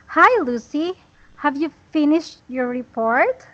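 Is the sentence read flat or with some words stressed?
stressed. It is read with key words clearly stressed. The speaker calls it right. "But when you add stress, it will become like this"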